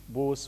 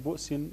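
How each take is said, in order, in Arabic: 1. الهمزة تصير حرف مد. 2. الهمزة تُغلق المقطع الأول. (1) "بإبدال الهمزة حرف مد" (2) "عينه همزة ساكنة"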